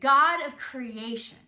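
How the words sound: The stress falls on the word creation. The speaker calls it right. "you could hear that inflection, creation"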